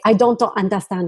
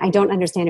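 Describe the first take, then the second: First: It is said with Japanese katakana-style pronunciation. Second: It is said with ordinary English pronunciation. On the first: "the katakana is the pronunciation key in Japanese for English" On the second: "instead of saying"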